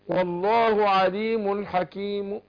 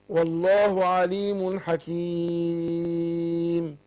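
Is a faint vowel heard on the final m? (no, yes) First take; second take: yes; no. First: The final m carries a faint, partial u vowel. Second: The final m ends silent, with no vowel. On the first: Part of the original vowel is kept in the pause. "بعض حركة الضم" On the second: The lips round silently to show the original vowel. "اضم الشفتين"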